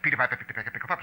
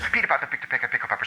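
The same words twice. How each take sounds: First: It is said faster, about seven words a second. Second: It is said slower, about five words a second.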